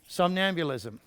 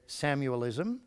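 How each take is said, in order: First: All syllables are said, with the middle 'nam' sound. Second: It is clipped, sounding like 'Samuel-ism'. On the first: The speaker calls it right. "which would be somnambulism" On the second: The speaker calls it wrong. "Not, as I heard one trainer say, Samuelism"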